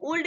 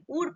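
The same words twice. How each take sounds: First: उल्ड with the L sounded; mispronounced would, 'oold'; wrong pronunciation. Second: उड with no L before D; silent L. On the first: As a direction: say उल्ड, L heard before D. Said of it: "इसको उल्ड नहीं बोला जाता है". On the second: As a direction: say उड, going straight to D. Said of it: "तो इसको हम क्या पढ़ेंगे?". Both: Shown as a demonstration.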